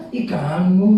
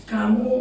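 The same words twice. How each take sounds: First: Louder, coy "kamu" with rising end; mock cutesy. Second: Said in the usual way. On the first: Shown as a demonstration. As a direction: coo "Ih, kamu" as a cute caricature. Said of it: "Lucu. Lucu namanya". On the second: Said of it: "Nggak bisa anak Medan bilangin".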